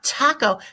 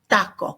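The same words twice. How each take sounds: First: The t is released with a puff of air. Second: The t is crisp, with no puff of air. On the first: The speaker calls it wrong. "Not taco" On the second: The speaker calls it right. "if you feel a lot of air coming on your hand, you've done it wrong"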